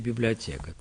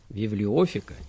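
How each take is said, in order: First: The consonant after 'bibli-o' is a t sound. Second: The consonant after 'bibli-o' is an f sound. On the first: The Greek letter theta is read as t. "и как «тэ»" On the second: The Greek letter theta is read as f. "фита тоже может читаться и как «фэ»"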